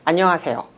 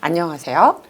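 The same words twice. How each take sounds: First: It is short and falls at the end. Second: It is drawn out and rises slightly at the end.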